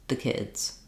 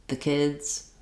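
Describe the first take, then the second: Both takes have the same delivery.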